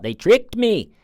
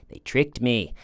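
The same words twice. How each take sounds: First: High, louder whiny mock of her; whiny mock quote. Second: Said in the usual way. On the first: Mocking Sarah blaming the detectives, in a high whiny voice. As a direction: whine it like a child caught out.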